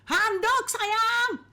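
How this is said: It is said in an irritated, annoyed tone. The speaker is fed up but still uses the endearment. "Suaminya mulai emosi ... intonasi berubah"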